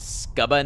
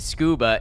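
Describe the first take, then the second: First: The first vowel sounds like 'uh'. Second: The first vowel sounds like 'oo'.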